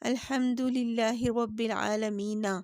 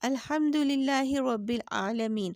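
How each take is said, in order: First: The final n takes an 'a' and runs on. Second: The final n is bare and the phrase stops. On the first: The verse is joined to the next without stopping. The speaker calls it wrong. "इसको इस तरह नहीं पढ़ा" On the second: The reciter pauses at the end of the verse. The speaker calls it right. "इसको हम साकिन करके पढ़ेंगे"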